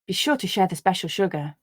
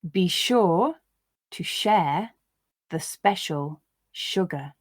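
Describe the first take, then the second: First: The sentence is read at a natural, faster pace. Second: The sentence is read slowly, word by word. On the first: "I'll read once at a more natural pace" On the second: "I'll read the sentences once, slowly"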